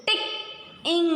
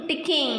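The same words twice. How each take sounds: First: "Tick, ing" with a clear gap between parts; divided into syllables. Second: Said in the usual way. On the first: Shown as a demonstration. Teacher dividing the word for pupils, syllable by syllable. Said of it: "when we are dividing the word". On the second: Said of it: "and joining them".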